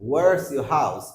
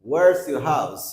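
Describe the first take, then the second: First: The words are squeezed into one contracted word. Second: The words are squeezed into one contracted word.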